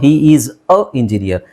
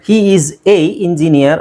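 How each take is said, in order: First: The article is a reduced 'uh' sound. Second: The article is a full 'ay' sound. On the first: The article is not stressed. "ಅ ಅಂತ ಹೇಳ್ಬೋದು" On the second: The article is being stressed. "ಎ ಅಂತ ಹೇಳ್ಬೋದು"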